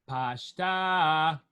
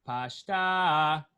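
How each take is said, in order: No difference in how they are said.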